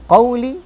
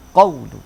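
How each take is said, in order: First: The word ends with an i vowel. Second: The word ends with a u vowel. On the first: The word is in the genitive case. "Satu qauli, ... dijarkan" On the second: The word is in the nominative case. "yang kedua qaulu ... dirafa'kan"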